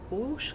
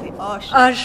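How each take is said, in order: First: The vowel sounds like 'oo'. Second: The vowel sounds like 'oh'. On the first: The speaker calls it wrong. "si tu dis à nouveau ouche comme ça, tu vas te faire traquer" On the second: The speaker calls it right. "C'est hoche"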